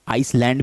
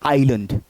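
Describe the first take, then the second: First: An s sound is pronounced before the l. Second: No s sound is pronounced before the l. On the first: The speaker calls it wrong. "कुछ लोग आइसलैंड भी पढ़ सकते हैं ... लेकिन गलत है" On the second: The speaker calls it right. "सही प्रोनाउंसिएशन क्या है? आइलैंड"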